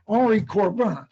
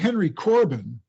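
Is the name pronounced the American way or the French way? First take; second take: French; American. First: The name is said with a French pronunciation. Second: The name is said with an American pronunciation. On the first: "I just pronounce his name as he would have" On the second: "if you Americanize it and say Henry Corbin"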